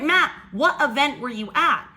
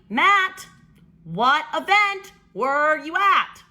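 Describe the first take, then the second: First: The question is spoken at a normal pace. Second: The question is spoken very slowly and deliberately.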